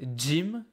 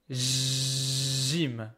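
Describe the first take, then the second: First: It begins with a hard, exploding 'dj' sound. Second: It begins with a soft, smooth 'zh' sound. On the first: The speaker calls it wrong. "This is not gym" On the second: The speaker calls it right. "this is gym"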